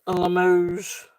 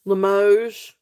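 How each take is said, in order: First: "A Limoges" slow, luh-MOHZH, checking it; a second careful go at "Limoges"; trying the pronunciation again. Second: "Limoges" said as luh-MOHZH, stress on the end; "Limoges" spoken slowly, testing the French; careful pronunciation. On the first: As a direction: repeat "Limoges" slowly to get it right. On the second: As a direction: sound out "Limoges" the French way, unsure. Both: Shown as a demonstration. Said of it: "I think that's how you say it".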